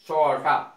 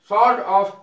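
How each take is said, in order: First: Said reduced and run together as one word. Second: Said as two full separate words.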